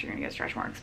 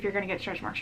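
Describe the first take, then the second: First: Soft breathy whisper; whispered aside. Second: Said in the usual way. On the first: Shown as a demonstration. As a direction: drop to a whisper. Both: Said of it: "repeats the phrase, second time whispered".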